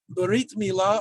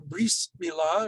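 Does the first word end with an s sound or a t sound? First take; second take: t sound; s sound. First: The first word ends with a t sound. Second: The first word ends with an s sound.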